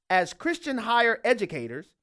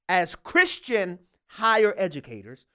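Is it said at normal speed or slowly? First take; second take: normal speed; slowly. First: It is said at normal speed. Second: It is said very slowly.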